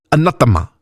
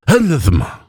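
First: "Anathema" said quickly, higher, with sharp consonants; faster accented repeat. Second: "Anathema" high and slurred, almost correct; drunken near-miss echo. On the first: Woman repeating the word for the elf, quicker accented "Anathema". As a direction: say "Anathema" briskly with a sharp t in the middle. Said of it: "faster this time". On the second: Drunk cleric echoing the woman, slurred high "Anathema". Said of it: "almost getting it right". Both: A narrator's reading.

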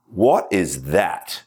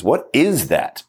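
First: Said in the usual way. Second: Slow, hitting the word "is"; stress on is. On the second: Shown as a demonstration. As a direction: put the weight on "is" and let "What" and "that" fall back. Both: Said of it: "the emphasis on the word is".

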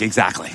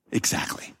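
First: Said in the usual way. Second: "Exactly." breathed in a whisper. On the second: Shown as a demonstration.

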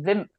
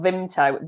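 First: Vimto said as "Vimp-toe"; local pronunciation. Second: Said in the usual way. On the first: Shown as a demonstration. Host showing how locals pronounce it, Vimto as "Vimp-toe". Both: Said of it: "although we all pronounce it".

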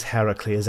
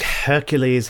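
First: "Heracles" with the Greek form of the name. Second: "Hercules" with the Roman form of the name; English Hercules. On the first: GM trying the Greek name: "Heracles" as HAIR-uh-kleez. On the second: GM choosing the English name: "Hercules" as HER-kyoo-leez. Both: Shown as a demonstration. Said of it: "I never really can make up my mind about which one to use".

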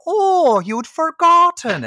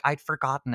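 First: High, loud, drawn-out mock astonishment; mocking shopkeeper. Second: Lightly acted County Wexford accent; a hint of a Wexford accent on a simple admission. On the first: Terrible shop boss mocks her employee, hammed-up scorn. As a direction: throw it back in a hammed-up, swooping high voice. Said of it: "And she's like". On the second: Film heroine answers her accuser, lightly voiced Wexford accent. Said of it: "I have to speak in this accent".

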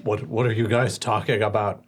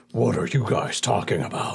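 First: Lightly voiced half-orc; half-orc sounding like he has a cold. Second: Second stab at a half-orc, lightly voiced; a hint of half-orc. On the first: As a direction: try out a half-orc with a stuffy edge. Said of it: "is that your half orc voice?". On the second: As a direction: put on a modest orc character voice. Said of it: "I was trying to do some".

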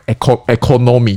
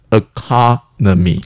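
First: Economy with every vowel said full and even, the o's alike; non-standard Japanese-style. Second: Economy with the stress on the second syllable, the e and the last o reduced; standard English. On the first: Mocking the old textbook economy, full even vowels. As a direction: read economy letter by letter with equal full vowels. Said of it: "这种感觉". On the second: Teaching listeners the standard economy, reduced vowels. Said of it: "假设是一个比较标准的英文". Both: Shown as a demonstration.

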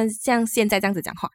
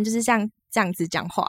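First: 像现在这样子讲话 in a relaxed Malaysian Mandarin accent; a light Malaysian accent. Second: A light Taiwanese accent. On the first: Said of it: "一就是可以很Malaysia". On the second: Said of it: "一就是非常的台湾". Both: Shown as a demonstration.

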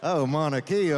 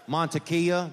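First: Sexy Spanish. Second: Mantequilla said the Spanish way, rolled and nasal; Spanish word. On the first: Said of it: "It sounds sexier when it's Spanish". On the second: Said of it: "that's Spanish butter". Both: Shown as a demonstration.

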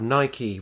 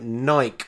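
First: "Nike" with the final e sounded as ee; Nike as two syllables. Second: "Nike" with a silent final e; Nike as one syllable. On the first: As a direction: say "Nike" to rhyme with spiky. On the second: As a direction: say "Nike" to rhyme with bike. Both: Shown as a demonstration. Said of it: "how that should be pronounced".

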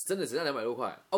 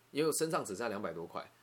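First: Louder, fast, rising on 啊; emphatic repeat. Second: Said in the usual way. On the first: Real, not acted. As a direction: stress 两百多块, end 啊 rising. 强调重复只剩两百多块. (加重语气，大声快速重复)

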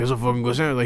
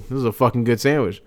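First: Lightly attempted Spanish accent; bad Spanish accent. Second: Said in the usual way. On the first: Son imitating dad praising a sandwich, bad Spanish accent. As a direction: give a half-hearted Spanish accent impression. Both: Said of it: "he's got a Spanish accent to him".

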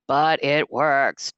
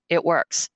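First: "but it works" drawn out slowly, each word weighted; slow stress on works. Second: Said in the usual way. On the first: Shown as a demonstration. Insisting to viewers the drink works, slow emphatic.

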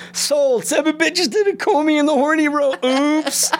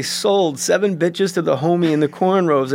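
First: Much higher goofy flubbed line; high mock Farley then a cheeky oops. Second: Said in the usual way. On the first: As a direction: blurt the botched line like Chris Farley. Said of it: "And he goes". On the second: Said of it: "He's supposed to say".

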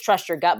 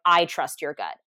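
First: Said in the usual way. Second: Emphasis on "I", marking the speaker's own trust; stress on I. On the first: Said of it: "not just trust your gut". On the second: Acted. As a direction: lean on "I" before "trust your gut". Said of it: "not just trust your gut, but".

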